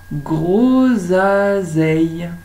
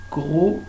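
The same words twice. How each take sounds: First: Grosaseille drawn out slowly and louder; slow loud word. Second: Said in the usual way. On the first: Shown as a demonstration. Teacher to pupils, slow loud grosaseille. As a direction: stretch grosaseille for the class.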